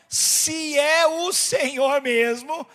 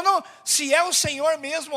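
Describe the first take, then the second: First: Slow, stretched words in an altered voice; loudly spelled-out, testing repeat; drawn-out challenge. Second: Peter's challenge, higher pitch, running on; retold challenge. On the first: Retold or imitated. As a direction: draw out every word of Peter's challenge. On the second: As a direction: retell his challenge briskly in a raised pitch. Peter's words, first quick take.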